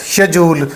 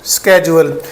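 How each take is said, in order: First: It begins with 'sh' and has a 'j' sound. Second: It begins with 'sk' and has a 'j' sound. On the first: This is the British pronunciation. "British English UK में... जे की sound के साथ" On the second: This is the American pronunciation. "American English में ये पढ़ा जाता है स्केजुअल"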